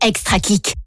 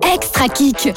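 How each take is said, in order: First: It is said weakly, with little energy. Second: It is said forcefully, with much energy. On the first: The speaker calls it wrong. "c'est un petit kick, ça?" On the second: The speaker calls it right. "Ah, c'est mieux"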